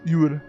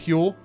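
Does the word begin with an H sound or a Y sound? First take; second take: Y sound; H sound. First: The word begins with a Y sound. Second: The word begins with a sounded H. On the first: The speaker calls it right. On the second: The speaker calls it wrong.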